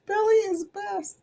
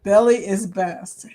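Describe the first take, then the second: First: Higher, playful echo; playful sing-song. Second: Said in the usual way. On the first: Acted. Streamer echoing a viewer's comment, playful sing-song. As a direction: toss the line back in a teasing lilt.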